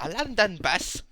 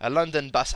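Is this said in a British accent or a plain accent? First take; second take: British; plain. First: It is said in a put-on British accent. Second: It is said in the speaker's ordinary accent.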